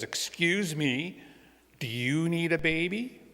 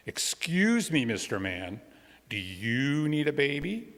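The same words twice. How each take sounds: First: Put-on slow, high little-girl voice; a small girl's hopeful question, drawn out; high and slow, rising hopefully at the end; little girl asking sweetly. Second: Put-on high, loud little-girl voice; a small girl piping up to get a man's attention; bright high call, then a hopeful question. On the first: Robin politely asks a stranger. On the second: Robin asks man on lawn.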